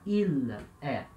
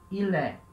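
First: The two words are said apart with a break. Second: The two words run together as one word. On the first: The speaker calls it wrong. "a gente não fala il, é" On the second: The speaker calls it right. "A gente junta ilé"

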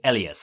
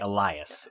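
First: The name is said the Japanese way. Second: The name is said the English way. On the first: "In the Japanese, they pronounce it Elias" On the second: "And in the English, they say Elias"

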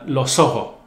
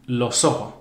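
The two takes are said the same way.

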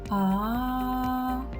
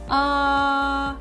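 First: The vowel is said very quietly. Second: The vowel is said loudly. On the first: "Тихесенько" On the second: "А зараз голосно"

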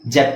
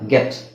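First: The word starts with a j sound. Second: The word starts with a hard g sound. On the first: The speaker calls it wrong. "ಜೆಟ್ ಅಲ್ಲ" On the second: The speaker calls it right.

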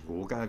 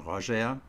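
First: The name is pronounced as it is spelled. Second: The name is pronounced unlike its German spelling. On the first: The speaker calls it wrong. "nicht Roger, wie man es schreibt" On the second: The speaker calls it right. "sondern Roger"

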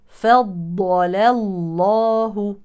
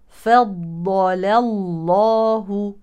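The two takes are said the same way.

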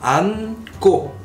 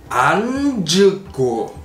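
First: The middle consonant is dropped, giving two syllables. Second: Every letter is sounded, giving three syllables. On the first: The speaker calls it right. "Então você vai ler isso como an" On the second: The speaker calls it wrong. "Eu forcei pra ler tudo"

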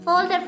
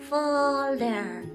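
First: The word is said quickly, repeated rapidly. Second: The word is said at normal speed. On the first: "Ahora más rápido" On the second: "Otra vez"

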